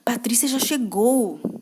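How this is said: It sounds fearful and anxious. The speaker is afraid of the arrival.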